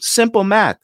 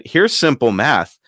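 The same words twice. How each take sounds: First: High, smug "Simple math" with a falling end; imitated salesman. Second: "Here's simple math" slow and deliberate, leaning on "Here's"; slow retort. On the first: Salesman talking down to [name], high and smug. Salesman repeats his phrase. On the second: Retold or imitated. [name] throwing the phrase back at the salesman, slow and deliberate. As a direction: spell "Here's simple math" out slowly for him.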